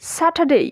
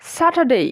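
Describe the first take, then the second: First: The last syllable ends with an 'ei' glide. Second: The last syllable ends with an 'ei' glide.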